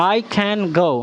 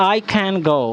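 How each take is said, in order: Both takes have the same delivery.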